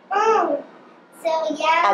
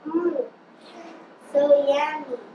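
First: It is said in a very happy way. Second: It is said in a plain, mild way.

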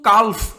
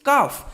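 First: The L sound is pronounced before the F. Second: The L sound is silent before the F. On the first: The speaker calls it wrong. "এখানে কিন্তু কাল্ফ এভাবে উচ্চারণ করিনি" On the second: The speaker calls it right. "আমি কিভাবে উচ্চারণ করেছি? কাফ"

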